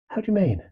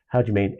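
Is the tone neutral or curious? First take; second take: curious; neutral. First: It is asked in an inquisitive, curious tone. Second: It is asked in a plain, neutral tone.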